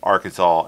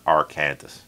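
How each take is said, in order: First: The name ends with a 'saw' sound. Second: The name ends with a 'sas' sound. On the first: The speaker calls it right. "Why we have Arkansas" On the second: The speaker calls it wrong. "and not Arkansas"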